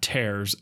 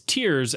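First: The vowel rhymes with 'airs'. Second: The vowel rhymes with 'ears'. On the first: It refers to ripping something apart. The speaker calls it wrong. "Not Tears as in tearing a piece of paper" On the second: It refers to drops from the eyes. The speaker calls it right. "Tears as in crying"

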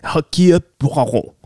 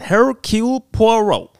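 First: It is said with a French accent. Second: It is said with an American accent.

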